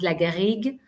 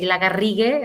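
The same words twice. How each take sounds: First: It is said with a French pronunciation. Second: It is said with a Spanish rolled R.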